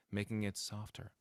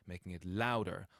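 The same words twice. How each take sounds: First: "softer" gently eased down in volume; stress by softness. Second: "louder" punched with more volume; stress by loudness. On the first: Coach luring people in, "softer" stressed softly. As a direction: ease off on "softer" to draw listeners in. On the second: Coach imitating forceful doers, "louder" stressed loudly. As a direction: hit "louder" hard. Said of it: "stress stuff by making it louder". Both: Shown as a demonstration.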